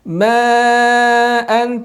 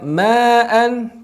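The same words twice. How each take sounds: First: The long vowel is held for several beats. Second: The long vowel is cut short without holding. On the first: The speaker calls it right. "panjangkan empat sampai lima harokat" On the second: The speaker calls it wrong. "tidak langsung dibaca ma'an"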